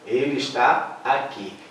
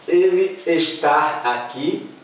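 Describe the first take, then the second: First: Said in the usual way. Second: "está" said as "estar", slow questioning rise; wrong infinitive form. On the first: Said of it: "Então, com acento". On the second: Shown as a demonstration. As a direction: slowly test "está" with an R ending, as if doubtful. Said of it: "Não".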